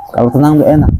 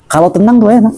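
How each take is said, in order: First: Said in the usual way. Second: Sing-song high. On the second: Shown as a demonstration. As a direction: float "tenang" up high, playful and light.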